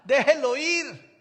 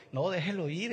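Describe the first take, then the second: First: Slow, much louder and higher "Déjelo ir"; carefree loud call. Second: Said in the usual way. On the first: Retold or imitated. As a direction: wave it off with a big carefree shout. ("Déjelo ir" gritado, lento y despreocupado) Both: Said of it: "el otro que no es catastrófico".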